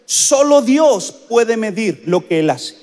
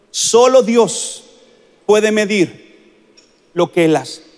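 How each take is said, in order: First: Said in the usual way. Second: Each word spaced out very slowly; slow solemn repetition for weight; very slow emphasis. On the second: Shown as a demonstration. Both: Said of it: "escúcheme bien lo que le voy a decir".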